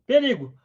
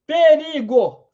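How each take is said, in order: First: Said in the usual way. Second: Slow drawn-out warning call; mock alarm cry. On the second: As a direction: stretch it out like warning the tribe. Alerting the group to danger. (grito de perigo arrastado)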